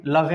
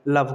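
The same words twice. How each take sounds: First: "लवे" with the final E voiced; wrong reading. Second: "लव" with the final E silent; correct reading. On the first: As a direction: say "लवे" as la-ve, two syllables. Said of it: "अगर ई को pronounce करें". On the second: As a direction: end "लव" on the v, one syllable. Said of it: "लव बोलेंगे सिर्फ". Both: Shown as a demonstration.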